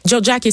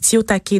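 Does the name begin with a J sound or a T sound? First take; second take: J sound; T sound. First: The name begins with a soft j sound. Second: The name begins with a t sound. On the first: The speaker calls it right. "c'est comme ça qu'il faut le prononcer" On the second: The speaker calls it wrong. "Moi, j'ai dit Tiotake"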